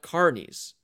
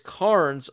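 First: The name does not rhyme with Barnes. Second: The name rhymes with Barnes. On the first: The speaker calls it wrong. "not Carnies" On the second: The speaker calls it right. "it's Carnes like Barnes"

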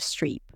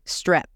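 First: The vowel is a long, tense E sound. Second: The vowel is a short, lax I sound. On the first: The speaker calls it right. "instead of streep" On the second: The speaker calls it wrong. "it sounded like to strip or strip"

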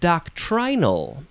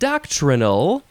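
First: The word is said in a British way. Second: The word is said in a non-British way.

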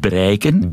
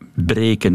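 First: The first vowel is an ei diphthong. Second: The first vowel is a plain long e. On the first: This is the Aalst dialect form. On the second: This is the standard Dutch form.

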